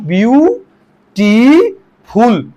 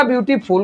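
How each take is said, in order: First: "ब्यूटीफुल" slowly split as ब्यू... टी... फुल, rising; syllable by syllable. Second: Said in the usual way. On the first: Shown as a demonstration. Teacher showing what is really said, "ब्यूटीफुल" slow, syllable by syllable. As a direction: stretch each of the three syllables of "ब्यूटीफुल". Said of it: "वास्तव में आप ब्यूटीफुल". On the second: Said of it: "जल्दी से बोल जाते हैं".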